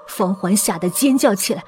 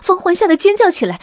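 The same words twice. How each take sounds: First: Said in the usual way. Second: High, loud, alarmed storytelling; urgent narration. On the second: A narrator's reading. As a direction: narrate as if the panic were catching. Narrating panic at the rope. (高声紧张地讲述)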